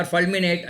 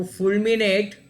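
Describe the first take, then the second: First: "fulminate" with first syllable as FUHL; alternative pronunciation. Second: "fulminate" with first syllable as FULL; alternative pronunciation. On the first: Quizmaster unsure how to pronounce it, "fulminate" tried as FUHL-minate. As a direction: say "fulminate" with a short uh in "ful". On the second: Quizmaster offers one reading of an unsure word, "fulminate" pronounced FULL-minate. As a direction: say "fulminate" with a rounded oo in "ful". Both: Shown as a demonstration. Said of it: "how to pronounce".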